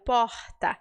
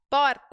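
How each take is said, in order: First: The R is a breathy aspirated sound. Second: The R is a quick tongue tap.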